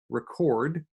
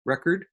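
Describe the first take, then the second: First: "record" stressed on the second syllable, re-CORD; "record" with the stress at the end, as in to record a song; verb stress. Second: "record" stressed on the first syllable, REC-ord; "record" with the stress up front, like a music record; noun stress. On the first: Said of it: "just changing stress patterns". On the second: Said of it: "change two words from noun to verb". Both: Shown as a demonstration.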